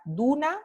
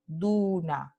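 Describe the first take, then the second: First: Said in the usual way. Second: "Duna" with a long "u", falling; phonemic reading. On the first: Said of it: "escrita con ortografía convencional regular". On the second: Shown as a demonstration. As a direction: stretch the "u" in "Duna", syllable by syllable. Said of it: "la palabra escrita con transcripción". ("Duna" alargando la "u", por sílabas)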